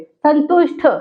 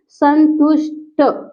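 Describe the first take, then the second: First: संतुष्ट with an aspirated ठ at the end. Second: संतुष्ट pulled apart slowly as सं, तुष्, ट; very slow संतुष्ट with unaspirated final ट; syllable by syllable. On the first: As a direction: say संतुष्ट as written with final ṭh. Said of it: "फिर संतुष्ट लिखा है ना". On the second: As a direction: dictate संतुष्ट in slow pieces, plain ट at the end. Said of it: "बल्कि क्या हो जाता है". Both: Shown as a demonstration.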